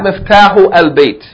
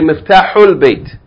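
First: The 'a' of 'al' is pronounced separately. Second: The 'a' of 'al' is dropped and linked. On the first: The speaker calls it wrong. "not miftahu al bait" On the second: The speaker calls it right. "You're going to say, miftahul bait"

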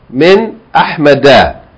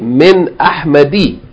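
First: The last word ends with an 'a' vowel. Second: The last word ends with an 'i' vowel. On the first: The speaker calls it right. "the sign that it's majroor instead of kasra is fatha" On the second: The speaker calls it wrong. "you do not say min ahmadi"

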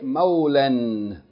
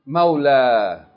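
First: The word ends with an n sound. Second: The word ends with a long a vowel. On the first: The reading continues on without a stop. "if you continue reading, you pronounce it as a regular tanween" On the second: The reading stops on this word. "if you stop on it, ... the Fatta is being elongated by Alif"

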